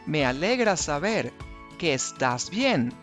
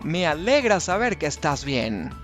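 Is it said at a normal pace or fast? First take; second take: normal; fast. First: It is said at a normal pace. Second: It is said at a fast pace.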